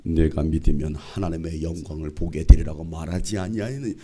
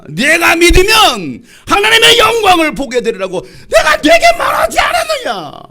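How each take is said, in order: First: Low, gently intoned reading; overly gentle, pitched right down; soft gentle tone. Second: Furious high-pitched yell; full-force scolding roar, pitched high; angry shout. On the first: Shown as a demonstration. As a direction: say it mildly, in a low soothing voice. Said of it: "부드러운 톤으로 말씀". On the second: Acted. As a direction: shout it in exasperated anger, very loud. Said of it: "화가 나시는 거야".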